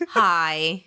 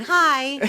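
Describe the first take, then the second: First: Hi in a British accent; British-style hi, dropped in pitch. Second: Hi in an American accent; American-style hi. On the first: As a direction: try hi the British way, pitched lower. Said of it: "in a British accent". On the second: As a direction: say hi the American way, a little higher and brighter. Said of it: "sounds American". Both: Shown as a demonstration.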